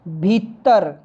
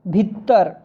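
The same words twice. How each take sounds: No difference in how they are said.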